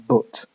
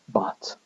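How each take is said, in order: First: The vowel is the same as in foot. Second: The vowel is an open, unrounded southern vowel. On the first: "my pronunciation of this word would be but" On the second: "not but. Okay, that to me sounds rather fake"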